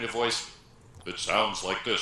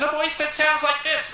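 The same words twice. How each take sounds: First: The voice is pitched low and sounds rich. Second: The voice is pitched high and sounds nasal. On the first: The speaker sounds authoritative. The speaker calls it right. "sort of rich and deep, because this is at the lower end of my range" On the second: The speaker sounds less commanding. The speaker calls it wrong. "which is up here somewhere"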